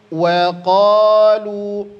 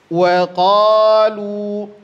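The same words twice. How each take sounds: No difference in how they are said.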